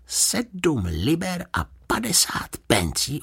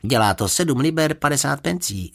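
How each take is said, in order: First: Slow, high, hushed disbelief; disbelieving. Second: Said in the usual way. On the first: A narrator's reading. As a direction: repeat the price as if you can't believe your ears. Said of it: "nemohl uvěřit svým uším". (nevěřícně, pomalu)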